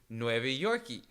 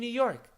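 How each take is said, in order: First: The name ends with an added vowel sound. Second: The name ends on the consonant, without an added vowel.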